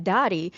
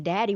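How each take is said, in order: First: "Dottie" with an open ah in place of the flat a of daddy; childhood pronunciation. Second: Said in the usual way. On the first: Retold or imitated. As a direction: imitate the old proper way, "Dottie", first vowel open. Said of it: "but we'd be like". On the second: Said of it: "we're saying daddy".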